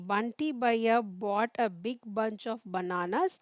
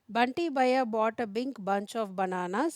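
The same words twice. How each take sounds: First: It is read slowly. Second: It is read faster.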